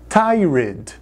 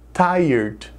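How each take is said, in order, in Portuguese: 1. Ela é pronunciada seguindo de perto a sua grafia. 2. Ela é pronunciada do jeito nativo do inglês. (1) "Muitas pessoas falam tired" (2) "A pronúncia é tired"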